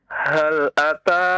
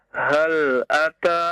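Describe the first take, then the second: Both takes have the same delivery.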